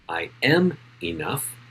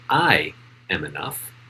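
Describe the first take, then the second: First: The stress is on am. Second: The stress is on I.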